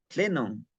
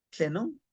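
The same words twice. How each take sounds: First: Tlenon with a falling tune, like a plain statement. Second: Tlenon with a rising question tune; asking tone. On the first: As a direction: tlenon dropping at the end. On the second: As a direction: tlenon lifted at the end as a question. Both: Shown as a demonstration. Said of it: "cuando decimos tlen o tlenon".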